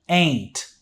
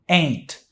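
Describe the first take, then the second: Both takes have the same delivery.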